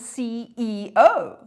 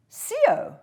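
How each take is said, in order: First: Each letter is said separately. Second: It is said as a single word. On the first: It is treated as an abbreviation. The speaker calls it right. "I say the C E O" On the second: It is treated as an acronym. The speaker calls it wrong. "do you pronounce that"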